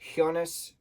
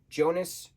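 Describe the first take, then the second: First: The name begins with a sh sound. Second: The name begins with a j sound.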